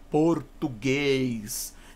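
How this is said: The vowels are full and open. "o brasileiro canta mais as vogais, ele fala as vogais mais, mais abertas"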